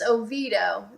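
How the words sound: The name is said in an English way. This is how the town's name is said today. "That's the anglicized pronunciation"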